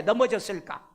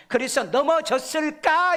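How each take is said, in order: First: Said in the usual way. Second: 넘어졌을까 rising, higher and louder; stressed question. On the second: Shown as a demonstration. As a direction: hit 넘어졌을까 with a rising tune. (넘어졌을까를 올리며 강조) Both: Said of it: "이렇게 해석을 해야 돼".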